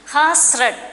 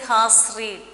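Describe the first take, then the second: First: The word read sounds like red. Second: The word read sounds like reed. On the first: The speaker calls it right. "we have to say the past participle form of the verb" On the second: The speaker calls it wrong. "Please don't say has read. That's wrong"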